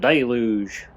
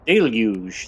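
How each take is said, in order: First: The word is pronounced the American way. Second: The word is pronounced the British way. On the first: "If you're American, you'd be like, it's a deluge" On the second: "That sounds like the British way"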